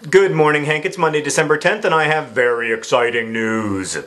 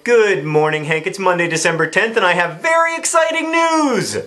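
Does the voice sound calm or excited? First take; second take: calm; excited. First: It is said in a lower, calm voice. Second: It is said in a high-pitched, excited voice. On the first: The excitement does not sound real. The speaker calls it wrong. "It just doesn't sound genuinely excited" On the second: The speaker is genuinely excited. The speaker calls it right. "when I get excited, I talk in a really high-pitched voice"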